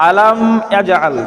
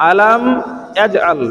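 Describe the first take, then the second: No difference in how they are said.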